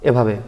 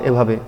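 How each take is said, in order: The two takes are said the same way.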